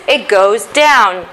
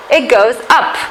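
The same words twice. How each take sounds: First: "down" drawn out and dropping; falling intonation. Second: "up" lifted at the end; rising intonation. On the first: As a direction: slowly let the voice sink on "down". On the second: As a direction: let the voice climb on "up". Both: Shown as a demonstration.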